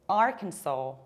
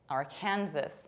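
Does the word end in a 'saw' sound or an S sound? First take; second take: saw; S sound. First: It ends in 'saw', with no S sound. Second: It ends like Kansas, with an S sound. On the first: The speaker calls it right. "with long A at the end, saw" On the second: The speaker calls it wrong. "knowing that Kansas is pronounced like Kansas, think this is Arkansas"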